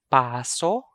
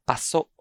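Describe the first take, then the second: First: Paso with long PAA, rising end; stress on first syllable. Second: Paso with short PA, stressed SO; stress on second syllable. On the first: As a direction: stretch the first vowel of Paso. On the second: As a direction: clip paso, weight on the last syllable. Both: Shown as a demonstration. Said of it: "I'm going to read".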